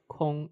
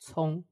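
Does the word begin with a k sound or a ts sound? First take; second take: k; ts. First: The word begins with a k sound. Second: The word begins with a ts sound. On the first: The speaker calls it wrong. "it's not pronounced like Kong" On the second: The speaker calls it right. "It's pronounced like Cong"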